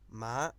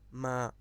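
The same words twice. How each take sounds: First: It is said in the tone that means horse. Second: It is said in the tone that means scold. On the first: The word means horse. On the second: The word means to scold.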